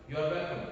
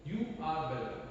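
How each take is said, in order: First: "You are welcome" run together as "you're welcome"; contracted short form. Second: Said in the usual way. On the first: Shown as a demonstration. Teacher showing students the short form, "You are welcome" said contracted. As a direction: squeeze "You are" into one quick syllable in "You are welcome". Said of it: "It's short form".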